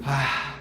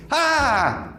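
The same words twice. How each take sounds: First: A low, soft sigh of relief; relieved sigh. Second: A higher, bolder shout of joy; stronger joyful cry. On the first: Teacher demoing relief for the class, soft low sigh. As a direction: let the tension drain out. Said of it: "A de alívio". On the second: Teacher redoing the joyful ah more forcefully, bright cry. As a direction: let the joy burst out. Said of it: "Assim, mais forte". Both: Shown as a demonstration.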